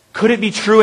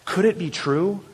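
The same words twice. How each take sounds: First: Said in the usual way. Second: Quiet, wondering question; hushed wonder. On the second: Acted. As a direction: ask softly, barely daring to believe. Wondering, then repeated in full voice.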